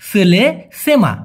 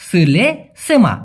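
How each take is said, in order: The two takes are said the same way.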